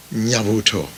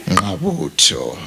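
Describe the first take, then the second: First: Nyabuto with a soft ny, falling; weak-tongued Kisii version. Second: Ngabuto slow, with a low ng at the start; proper Zulu pronunciation. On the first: Mourner teases the Kisii on their Nyabuto. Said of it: "because of your tongues that are weak". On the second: Preacher gives mourners the true Zulu Ngabuto. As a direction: say Ngabuto slowly and carefully the Zulu way. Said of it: "The actual word is that". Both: Shown as a demonstration.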